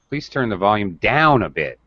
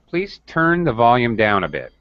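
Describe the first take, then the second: First: The stress falls on the word down. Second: The stress falls on the word turn. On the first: "I'm second when I emphasize down" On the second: "I changed my stress from turn to down"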